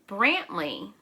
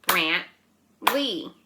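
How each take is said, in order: First: Said in the usual way. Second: Brantley in two separate beats; clap-along Brantley, each syllable on its own. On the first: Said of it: "how many syllables does Brantley have". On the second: Shown as a demonstration. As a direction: break Brantley into Brant, pause, ley. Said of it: "Let's clap Brantley's name".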